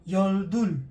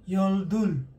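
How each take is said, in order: No difference in how they are said.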